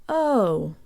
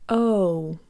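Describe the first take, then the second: First: The vowel glides closed toward oo. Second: The vowel glides closed toward oo.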